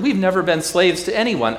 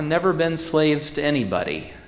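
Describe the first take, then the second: First: High, loud offended protest; indignant boast. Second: Said in the usual way. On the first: Acted. Preacher voicing proud crowd, high and loud. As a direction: shout it back as the proud crowd.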